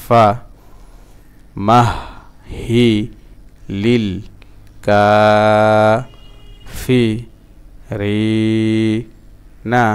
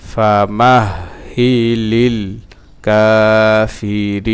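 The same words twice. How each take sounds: First: ফা, মাহ, হি, লিল set apart by pauses; broken-up syllables. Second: Louder, slow linked chant; sung, connect ফা মাহ হি লিল কাফিরিনা, stretching the long vowels; sung, joined-up recitation. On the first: Teacher drilling learners again, halting syllable-by-syllable chant. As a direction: chant piece by piece, drawing out Kafi and রি. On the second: Teacher reading the phrase through for learners, firm chant. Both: Shown as a demonstration. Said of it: "আবার ভাঙা ভাঙা উচ্চারণ".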